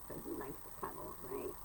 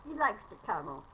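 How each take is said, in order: First: Soft quick whisper to the cat. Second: Said in the usual way. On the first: Real, not acted. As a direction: whisper it close and fast.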